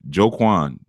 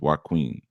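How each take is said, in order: First: The name begins with a 'j' sound. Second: The name begins with a 'w' sound. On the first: The speaker calls it wrong. "I might be pronouncing that wrong" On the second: The speaker calls it right. "Why Queen is how it's pronounced"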